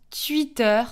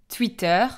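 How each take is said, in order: First: "Twitter" said as "tü-itteur"; "Twitter" with French u-glide instead of w; French pronunciation. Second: "Twitter" with a w, "touiteur"; "Twitter" with oui sound after the T; Belgian pronunciation. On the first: Teacher showing how France says Twitter, "tü-itteur". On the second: Teacher naming the platform, Twitter pronounced "touiteur". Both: Shown as a demonstration. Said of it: "qu'on prononce Twitter".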